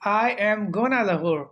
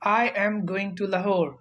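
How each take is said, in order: First: The words 'going to' are shortened to 'gonna'. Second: The words 'going to' are said in full.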